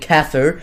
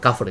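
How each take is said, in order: First: The word is pronounced with English sounds. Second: The word is pronounced with Arabic sounds. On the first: The speaker calls it wrong. "sorry if I'm pronouncing it in a, in a really English way" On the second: The speaker calls it right. "Yes, let's go, let's go. I got it"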